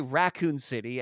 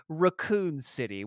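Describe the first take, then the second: First: "Raccoon City" in everyday American pronunciation; American accent. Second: "Raccoon City" with a British first vowel; British accent. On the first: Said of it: "as we would say in American accent". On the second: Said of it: "pronounce it in a British accent". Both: Shown as a demonstration.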